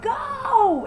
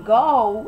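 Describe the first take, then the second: First: Go! shrieked very high and loud; mock her shriek, pitch jumping way up on Go!; shrill scream. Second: Loud shouted Go! in a retold fight; retold scream. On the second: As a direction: bark out Go! as she did, loud, not shrill. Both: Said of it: "you hear her screaming".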